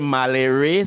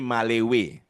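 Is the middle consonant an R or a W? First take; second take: R; W. First: The middle consonant is an R sound. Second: The middle consonant is a W sound. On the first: "Some folks say Malere" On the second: "some say Malewe"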